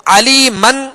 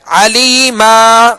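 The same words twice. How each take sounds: First: علی من ending in a short "man"; tanween pronounced. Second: علی ما ending in a drawn-out "maa"; slow علی ما with a long open aa; alif-length stop. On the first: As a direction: sound the final n of علی من. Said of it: "کی بجائے علی ما". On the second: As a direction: stretch the last vowel of علی ما, no n. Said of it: "ایک الف کی مقدار میں کھینچ کر". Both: Shown as a demonstration.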